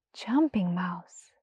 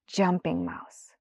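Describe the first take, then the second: First: Soft whispered, slow name; the mouse whispering his new name; awed whisper. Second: Said in the usual way. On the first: Acted. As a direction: breathe the name in wonder.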